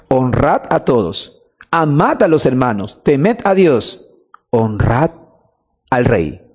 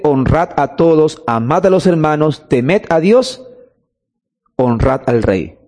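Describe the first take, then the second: First: Slower and lower, with a pause before "al rey"; deliberate re-reading, "honrad" set apart from "al rey"; emphatic repetition. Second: Said in the usual way. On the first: Shown as a demonstration. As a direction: weigh each phrase, ending low on "al rey". Repeats the verse slowly for emphasis.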